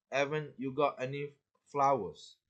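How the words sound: The h sound at the start is dropped. "she might pronounce it as"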